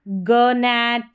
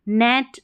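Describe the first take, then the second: First: A hard g sound begins the word. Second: The word begins directly with an n sound. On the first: The speaker calls it wrong. "ऐसे नहीं पढ़ेंगे" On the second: The speaker calls it right. "जी को भूल जाएं शुरू वाले को"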